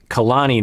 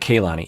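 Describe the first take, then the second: First: The first syllable has an 'ah' vowel. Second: The first syllable has an 'ay' vowel. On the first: The speaker calls it right. "to pronounce her name" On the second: The speaker calls it wrong.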